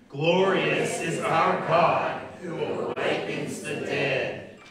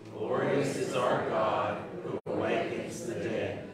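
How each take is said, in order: First: It is said with lively enthusiasm. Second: It is said calmly, without special enthusiasm.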